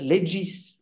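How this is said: The word is said the Italian way. "Ceux qui sont allés en Italie disent le legis"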